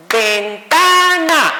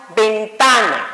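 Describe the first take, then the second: First: "ventana" drawn out slowly in three equal beats, higher; clapped-out syllables. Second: "ventana" said as one word, stressed on the middle "ta"; natural stress on TA. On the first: Teacher showing the misleading clapping method, "ventana" in slow beats. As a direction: chant "ven-ta-na" syllable by syllable, as if clapping. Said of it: "Y nos aplaudían, por ejemplo". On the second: Teacher showing correct pronunciation, "ventana" stressed on "ta". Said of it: "si nosotros expresamos correctamente la palabra". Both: Shown as a demonstration.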